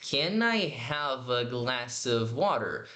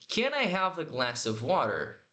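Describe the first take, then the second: First: Very slow, careful linked question; slow teacher model; slow demo. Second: "Can I have a" run together as canaihava; slow, linked model question; linked words. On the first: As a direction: draw the question out slowly. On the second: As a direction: join "Can I" into one sound. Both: Shown as a demonstration. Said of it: "eu tô juntando tudo aqui".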